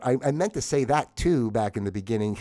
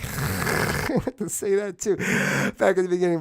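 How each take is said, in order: First: Said in the usual way. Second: Laughing retake. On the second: Shown as a demonstration.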